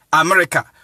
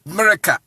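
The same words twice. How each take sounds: First: AMERICA begun with "ah"; common A in AMERICA. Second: AMERICA begun with "ay"; letter-name "ay" starting AMERICA; English letter A in AMERICA. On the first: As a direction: say AMERICA as "ah-merika". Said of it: "But they pronounce it". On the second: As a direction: say AMERICA as "AY-merika". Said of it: "Why not pronouncing it". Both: Shown as a demonstration.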